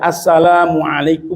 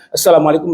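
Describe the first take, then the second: First: It is said slowly, with a long lam. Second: It is said quickly, with a short lam. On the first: The speaker calls it right. "Assalam, lamnya panjang" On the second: The speaker calls it wrong. "Bukan assalamualaikum"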